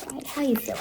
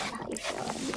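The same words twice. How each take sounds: First: Said in the usual way. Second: The same question, now whispered. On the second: Acted. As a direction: drop to a breathy hush.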